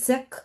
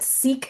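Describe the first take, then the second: First: The word ends with a short extra voiced sound. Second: The word ends plainly, with no extra voiced sound. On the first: This is how the community itself says it. The speaker calls it right. "like Sikh with that little vocalization at the end" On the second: This is an English-ized way of saying it. The speaker calls it wrong. "Sikh is kind of like over anglicized"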